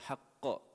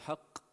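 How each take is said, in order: First: The final q is released with a small bounce. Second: The final q stops dead without any bounce. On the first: The speaker calls it right. "you say haqqa" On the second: The speaker calls it wrong. "you don't say haqq"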